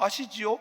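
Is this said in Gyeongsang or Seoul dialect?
Seoul. It is said in Seoul dialect. "서울말로"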